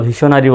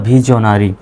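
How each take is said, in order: First: "ভিশনারি" with a sh sound in the middle; common variant with sh. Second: "ভিশনারি" with a j or z sound in the middle; voiced j in place of sh; correct voiced middle. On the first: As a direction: say "ভিশনারি" as vi-sho-na-ri. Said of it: "যদিও বা ভিশনারি বলা হয়". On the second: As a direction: say "ভিশনারি" as bhi-jo-na-ri. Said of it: "সঠিক উচ্চারণটা হলো". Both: Shown as a demonstration.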